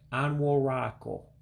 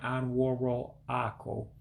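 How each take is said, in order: First: The vowel between the words is dropped. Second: The vowel between the words is kept. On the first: The speaker calls it right. "Say it right" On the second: The speaker calls it wrong. "not anworoako"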